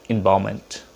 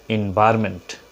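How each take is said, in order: The two takes are said the same way.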